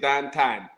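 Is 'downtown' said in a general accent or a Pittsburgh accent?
Pittsburgh. It is said in a Pittsburgh accent. The speaker calls it right. "say downtown"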